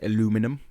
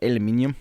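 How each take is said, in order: First: It is said with an American pronunciation. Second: It is said with an Australian pronunciation. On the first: The speaker calls it wrong. "you know how Americans say aluminum" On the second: The speaker calls it right. "we're just like aluminium"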